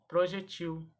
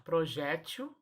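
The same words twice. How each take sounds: First: "projetil" said pro-je-TIL; final TIL of "projetil" stressed; stress on last syllable. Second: "projétil" said pro-JÉ-til; stress on middle syllable. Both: Shown as a demonstration. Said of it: "As duas formas são corretas".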